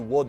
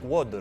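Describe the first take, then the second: First: The accented syllable is louder and longer. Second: The accented syllable has a high or falling pitch. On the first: The speaker calls it wrong. "it wouldn't just be water" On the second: The speaker calls it right. "it would be something like water"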